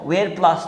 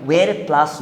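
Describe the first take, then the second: Both takes have the same delivery.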